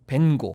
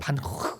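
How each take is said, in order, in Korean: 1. 이름은 영어식으로 읽어요. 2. 이름은 네덜란드식으로 읽어요. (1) "영어로는" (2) "네덜란드 원어로는요"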